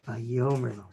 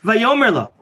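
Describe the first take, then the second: First: It is said in a soft, gentle way. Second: It is said in a harsh, abrupt way. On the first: The speaker calls it right. "Softly. With his cool" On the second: The speaker calls it wrong. "Not like I just read it the first time mistakenly"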